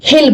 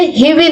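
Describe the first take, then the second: First: It is said as one contracted syllable. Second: It is said as two separate full words. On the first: "short में क्या बोलेंगे, हिल बोलेंगे" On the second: "जैसे ही विल है"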